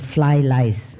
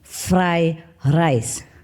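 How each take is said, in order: First: Both words are said with an L sound. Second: Both words are said with an R sound. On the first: The speaker calls it wrong. "Your pronunciation is long" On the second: The speaker calls it right. "The correct way is fried rice"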